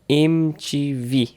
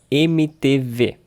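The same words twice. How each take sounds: First: The letters are said with English pronunciation. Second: The letters are said with Brazilian Portuguese pronunciation.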